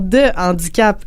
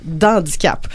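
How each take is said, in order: First: 'De' is said in full before the h. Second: 'De' is elided and joined onto the word. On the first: The speaker calls it right. "en situation de handicap et non d'handicap" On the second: The speaker calls it wrong. "et non d'handicap"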